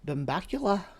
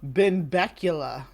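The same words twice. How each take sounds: First: It is said in a fake Scottish accent. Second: It is said in his normal American accent.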